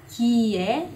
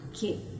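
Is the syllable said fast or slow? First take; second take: slow; fast. First: The syllable is said slowly, in two parts. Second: The syllable is said quickly, as one sound. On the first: "Se for devagar" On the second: "Se for rápido"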